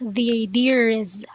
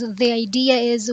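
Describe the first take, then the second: First: An r sound links idea and is. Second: No r sound links idea and is.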